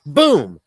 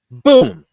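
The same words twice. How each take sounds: First: Said in the usual way. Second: A big, sudden boom, much higher and louder; mock impact shout. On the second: Shown as a demonstration. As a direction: shout the boom like something hitting you hard. Mimicking a moth hitting you.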